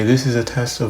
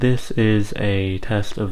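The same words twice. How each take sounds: First: There is noticeable background hiss behind the voice. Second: The voice sounds a bit quieter and softer. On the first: "the Boya has much less background hiss than the iPhone does" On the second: "with the windshield on it can sound a bit quieter"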